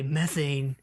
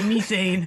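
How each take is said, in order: First: Methane is pronounced the American way. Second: Methane is pronounced a non-American way. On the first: This is how Americans say it. "we say methane here in the land of the free" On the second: This is how non-Americans say it. "they both say methane because I'm sure they're both not American"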